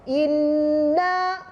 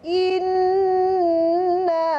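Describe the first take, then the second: First: It is said quickly with a short held nasal. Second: It is said slowly with a longer held nasal. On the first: "pengiraan juga kena secara hadar" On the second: "Kalau baca secara mujawad, dua harakat lagi tu"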